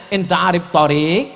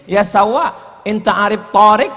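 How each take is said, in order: First: Torik diucapkan dengan vokal pendek; Torik yang benar. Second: Torik diucapkan dengan alif panjang di tengah; Torik salah panjang. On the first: Shown as a demonstration. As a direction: Torik tanpa alif panjang. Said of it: "yang betul mestinya dia tanya". (Torik dengan bunyi o pendek) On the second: Retold or imitated. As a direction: Torik dengan vokal o dipanjangkan. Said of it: "Gara-gara alifnya dia pasang Torik". (Torik pakai alif yang salah tempat)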